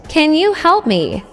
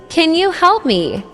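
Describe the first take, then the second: No difference in how they are said.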